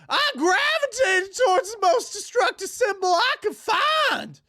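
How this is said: It is read in a put-on Ralph voice.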